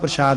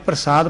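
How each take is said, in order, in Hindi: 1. बीच का व्यंजन sh की ध्वनि है। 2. बीच का व्यंजन सादा s की ध्वनि है। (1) "ਪ੍ਰਸ਼ਾਦ ਨਹੀਂ ਪੜ੍ਹਨਾ" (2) "ਪ੍ਰਸਾਦ ਪੜ੍ਹਨਾ"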